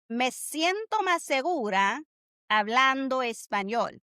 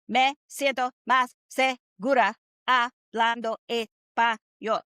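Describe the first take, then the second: First: The words flow smoothly together in connected phrases. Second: Each word is said separately in a mechanical way. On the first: The speaker calls it right. "So this is how it sounds" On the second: The speaker calls it wrong. "like a robot"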